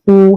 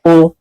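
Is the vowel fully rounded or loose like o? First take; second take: fully rounded; loose. First: The vowel is said with fully rounded lips. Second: The vowel is loose, sounding close to o. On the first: The speaker calls it right. "monyongkan ... secara sempurna" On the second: The speaker calls it wrong. "nggak boleh"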